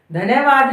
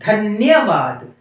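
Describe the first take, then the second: First: धन्यवाद with न as a full syllable; split half consonant. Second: Said in the usual way. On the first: Shown as a demonstration. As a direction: say धन्यवाद as "dha-na-ya-vaad". (धन्यवाद में न को पूरा बोलते हुए) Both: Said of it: "नहीं, धन्यवाद".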